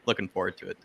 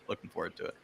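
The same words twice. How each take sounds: First: Said in the usual way. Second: Breathy whispered aside. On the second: Real, not acted. Panelist whispering his own line again. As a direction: whisper it under your breath.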